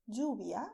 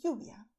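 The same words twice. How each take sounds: First: Lluvia with ll like English j. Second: Lluvia with ll like English y. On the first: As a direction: say lluvia as "joo-bia". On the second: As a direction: say lluvia as "yoo-bia". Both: Shown as a demonstration. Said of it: "or also".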